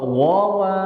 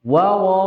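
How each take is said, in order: First: "wawa" with the first wawu full and the second thin, like "wowa"; heavy-thin wawu. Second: "wawa" with the first wawu light and the second heavy; thin-heavy wawu. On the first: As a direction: say "wawa" as heavy then light. ("wawa" dibaca seperti "wowa") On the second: ("wawa" dibaca wawu tipis lalu tebal) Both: Shown as a demonstration.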